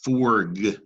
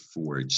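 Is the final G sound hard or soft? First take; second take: hard; soft. First: The final G is a hard g sound. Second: The final G is a soft j sound.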